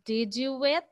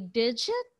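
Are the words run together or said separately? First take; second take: separately; run together. First: Each word is said separately and clearly. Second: The words blend together into one short word. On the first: "instead of saying" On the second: "you'll say digit"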